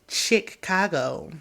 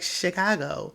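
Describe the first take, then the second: First: The first syllable sounds like 'chick'. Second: The first syllable sounds like 'shi'. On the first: The speaker calls it wrong. "why are you saying it this way? Like like chicken, like Chick-fil-A" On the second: The speaker calls it right. "And he's like"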